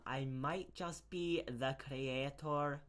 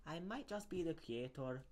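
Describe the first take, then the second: First: Put-on slow, weak Scottish accent. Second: Lightly Scottish, higher; Scottish accent. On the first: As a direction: drag it out in a shaky Scottish accent. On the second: Acted.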